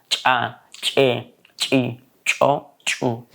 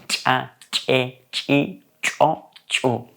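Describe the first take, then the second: Both takes have the same delivery.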